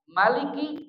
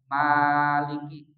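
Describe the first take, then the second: First: The first vowel is kept short. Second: The first vowel is drawn out long. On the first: "dibaca pendek" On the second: "boleh menggunakan alif, dibaca panjang"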